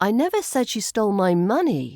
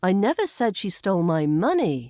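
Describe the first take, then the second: First: The stress falls on the word money. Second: The stress falls on the word money.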